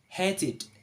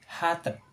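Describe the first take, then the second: First: The ending is a separate syllable. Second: The ending is not a separate syllable. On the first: The speaker calls it right. "the right sound is hated" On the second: The speaker calls it wrong. "in the writing is we can read as hated"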